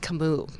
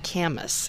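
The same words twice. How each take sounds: First: The name is said with a French pronunciation. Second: The name is said with an American pronunciation. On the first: The speaker calls it right. "His name was Camus, I think is correct" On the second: The speaker calls it wrong. "it's not Camus"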